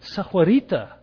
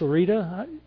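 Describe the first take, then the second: First: The name is said fully with four syllables. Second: The name is shortened to three quick syllables. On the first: The speaker calls it right. "I have a little bit of Spanish, so I want to say Sahuarita" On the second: The speaker calls it wrong. "I want to say that right"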